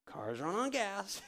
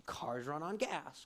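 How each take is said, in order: First: "Cars run on gas" slow, higher and punched; slow, raised, emphatic "Cars run on gas"; emphatic repeat. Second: "cars run on gas" said slowly at normal pitch; slow even "cars run on gas"; slow plain statement. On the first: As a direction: hammer home "Cars run on gas" slowly. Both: Shown as a demonstration.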